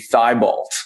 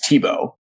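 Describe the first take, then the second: First: The name is read out as it is spelled. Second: The name is said the French way, as Tebow. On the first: This is how people would simply read the spelling. "the most simple pronunciation of it" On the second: This is the real pronunciation of the name. "the oddest pronunciation of it is the real way"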